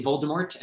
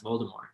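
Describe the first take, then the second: First: Voldemort with its final T sounded. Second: Voldemort without the final T, French-style; silent-T Voldemort. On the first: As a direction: end Voldemort on an audible T. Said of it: "she is on tape, uh, saying". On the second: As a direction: let Voldemort end on "more", no T. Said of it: "said that it should be pronounced". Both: Shown as a demonstration.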